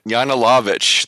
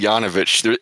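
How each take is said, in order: First: The name is said with an L sound. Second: The name is said without an L sound. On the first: The speaker calls it right. "It's Yanilovich?" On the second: The speaker calls it wrong. "I keep missing the L. I say Yanovich"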